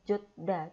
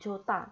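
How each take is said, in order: First: The syllables stay apart with a plain D sound. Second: The syllables merge with an aspirated T sound. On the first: The speaker calls it wrong. "Harusnya ini kan dibaca jot, kemudian da, jot da ... Tapi bukan dibaca kayak gitu" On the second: The speaker calls it right. "hietnya ... dianggap tidak ada ... digetnya disuruh berubah jadi tiet"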